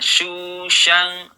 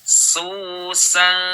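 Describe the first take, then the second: First: The s sounds are heavy and thick. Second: The s sounds are light and thin. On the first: The speaker calls it wrong. "Jangan syusyang" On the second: The speaker calls it right. "tidak dibaca tebal"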